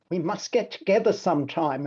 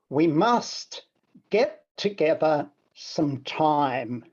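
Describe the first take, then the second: First: The word 'time' is not emphasized. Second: The word 'time' is emphasized. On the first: A casual parting remark, left hanging. "a remark on departure" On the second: It highlights time as the central idea. "playing with a little bit of different inflection, I want to emphasize the time aspect"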